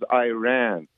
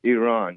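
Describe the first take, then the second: First: The first syllable sounds like 'eye', 'I ran'. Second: The first syllable does not sound like 'eye'. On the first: The speaker calls it wrong. "she says, Iran. I don't know where she ran from" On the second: The speaker calls it right. "But, it's Iran"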